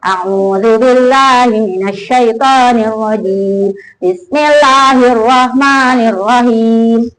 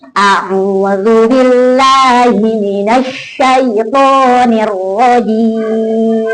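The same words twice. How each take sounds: First: Quick run-through, the doubled l in "billahi" not held; child's careless reading. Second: Slow, doubled l in "billahi" and sh in "minasyaitonir" held; correct stress. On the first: Retold or imitated. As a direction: skim "billahi" and "minasyaitonir" without pressing the tasydid. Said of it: "Tapi kalau anak baca gini". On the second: Shown as a demonstration. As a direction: press every tasydid, "billahi" full weight. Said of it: "kalau pakai, dipakai nabernya".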